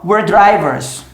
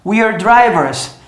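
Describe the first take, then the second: First: "We're drivers" with "We're" reduced to "were"; "We're drivers" said as "wer drivers"; sped-up contraction. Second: "we're drivers" with "we're" as "wee-er"; slow, careful "we're drivers"; full contraction. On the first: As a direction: squeeze "We're" into one short syllable before "drivers". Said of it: "falar a frase inteira rápida". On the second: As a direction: keep the long ee in "we're" before "drivers". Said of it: "se eu fizer a contração". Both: Shown as a demonstration.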